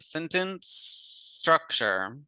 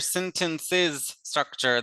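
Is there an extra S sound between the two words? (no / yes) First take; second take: no; yes. First: No extra S sound joins the two words. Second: An extra S sound joins the two words. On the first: The speaker calls it right. "the S does not end" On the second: The speaker calls it wrong. "There's this S in the middle"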